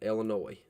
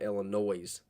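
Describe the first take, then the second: First: It is said with a standard pronunciation. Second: It is said with a country pronunciation. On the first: "Gotta make sure I say Illinois right" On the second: "which is my country slang coming out"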